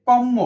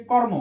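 First: কর্ম with a long, doubled m; doubled consonant demo. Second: Said in the usual way. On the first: Shown as a demonstration. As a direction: lean on the m in কর্ম as if written twice. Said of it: "দ্বিত্ব উচ্চারণ হচ্ছে না". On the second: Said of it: "এটা কি আমার দ্বিত্ব উচ্চারণ হচ্ছে না".

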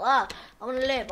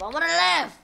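First: Said in the usual way. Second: Higher, louder desperate plea; desperate cry. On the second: Real, not acted. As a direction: plead to survive, louder.

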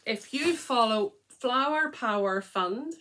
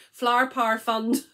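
First: Said in the usual way. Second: Flower Power Fund in a non-Scottish accent. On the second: Shown as a demonstration. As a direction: say Flower Power Fund without Scottish vowels, louder and higher. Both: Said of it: "not in my accent".

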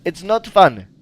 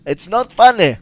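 First: Louder, firm complaint; louder English repeat. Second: Louder, more insistent; even louder complaint. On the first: Gamer scolding the pig in English, annoyed. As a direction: insist it isn't funny, raising the voice. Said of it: "To nie jest śmieszne". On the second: Gamer repeating his complaint at the pig, louder. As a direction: push harder on funny. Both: Real, not acted.

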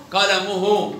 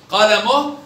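First: Slow قلمه as "qalamuhu"; damma on haa. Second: Slow قلمه as "qalamoh"; sukun on haa. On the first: Teacher tests the haa, قلمه ending in -uhu. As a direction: finish قلمه with full -uhu. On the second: Teacher tests the haa, قلمه ending in -oh. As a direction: end قلمه on a breathed h. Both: Shown as a demonstration. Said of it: "بالهاء".

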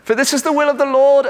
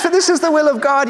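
First: High, quick mock-British reading; British accent. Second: Said in the usual way. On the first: Inner voice reading God's will, in a British accent. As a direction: read scripture in a playful British voice. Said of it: "for some reason it's British". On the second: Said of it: "No, he says".

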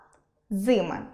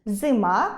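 First: Зими as ЗИми; зими with first-syllable stress. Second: Зима as зиМА; зима with final-syllable stress; stress on last syllable. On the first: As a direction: lean on ЗИ in зими. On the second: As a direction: lean on МА in зима, rising. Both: Shown as a demonstration. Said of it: "може змінювати своє місце".

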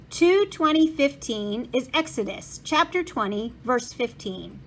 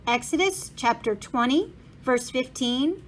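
First: Put-on Bible reference in a thick German accent. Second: Said in the usual way. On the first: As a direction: state the verse like an old German printer. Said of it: "said a man with a thick German accent".

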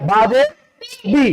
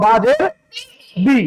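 No difference in how they are said.

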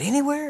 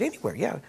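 First: Incredulous. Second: Said in the usual way. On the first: Retold or imitated. Sid doubting the claim.

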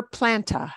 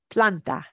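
First: Planta with A as in English "plant"; wrong English pronunciation. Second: Planta with open "ah" in both syllables; correct Spanish pronunciation. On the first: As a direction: say planta as "PLAN-tuh", American style. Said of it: "Never planta". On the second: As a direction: say planta as "PLAHN-tah". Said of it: "get that ah sound". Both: Shown as a demonstration.

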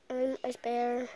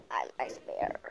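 First: Said in the usual way. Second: Low whispered character voice; a hushed, lower Ice Bear. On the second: Pretend. Child playing Ice Bear in whispered voice.

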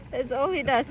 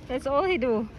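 First: Ends clearly on "does"; "That's all he does" with the s sounded; corrected verb. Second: Ends "do" without the s; "That's all he do" with plain "do"; casual slip. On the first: Fixing her slip to say "does". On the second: First try at describing the dog, saying "do". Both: Real, not acted.

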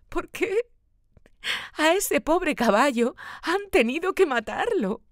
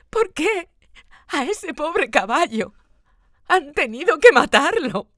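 First: Put-on high child voice choking on sobs; sobbing child. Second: Put-on high, louder child voice breaking into sobbing cries. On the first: Boy sobs to his father over the killed horse, high and tearful. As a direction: cry it out like a heartbroken little boy. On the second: Boy cries out to his father about the horse, high louder sobs. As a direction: wail it out through sobs, gasping. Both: A narrator's reading. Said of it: "dice entre sollozos".

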